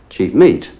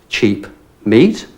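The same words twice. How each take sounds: First: The words run together and the P is silent. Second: The words are separate and the P is heard. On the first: "Together the P is silent" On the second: "if we pronounce those words separately"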